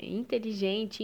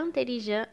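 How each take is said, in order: First: Said in the usual way. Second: "intelligent" as an-teli-jan, nasal ends, silent T; French pronunciation. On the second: Shown as a demonstration. Teacher contrasting it with Portuguese inteligente, French nasal "intelligent". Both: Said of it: "a gente lê como se fosse".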